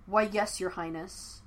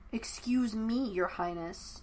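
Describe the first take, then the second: First: A hint of mock courtesy, dropping at "your highness"; bow with words, not meaning it; sarcastic. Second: Slow, pointed sarcasm on "your highness"; sharp retort. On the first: Zuko mocks princess. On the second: Acted. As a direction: throw his title back at him. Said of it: "Yue shot back".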